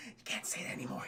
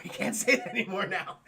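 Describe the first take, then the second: First: Hushed, voiceless whisper; whispered aside. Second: Voiced, amused, through a laugh; laughing aside. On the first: Pretend. Streamer warning chat about a dated slur, whispered. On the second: Real, not acted. Streamer repeating the warning to chat about a slur, laughing.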